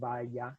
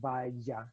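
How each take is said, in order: First: The middle consonant is smooth, without friction. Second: The middle consonant has audible friction.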